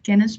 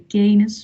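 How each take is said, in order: First: The first vowel is said short. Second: The first vowel is said long. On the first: The speaker calls it right. "but kennis" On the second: The speaker calls it wrong. "we don't say kennis"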